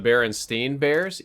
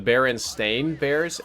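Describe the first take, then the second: First: The name's last syllable sounds like 'stein'. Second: The name's last syllable sounds like 'stain'. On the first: This is how the speaker remembers the name from childhood. "remember it as a kid as the Berenstein Bears, E I N" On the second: This is the official name of the book series. "I'm pronouncing it strange on purpose ... S T A I N"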